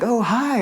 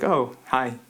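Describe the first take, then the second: First: The greeting sounds upbeat and friendly. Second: The greeting sounds short and unfriendly.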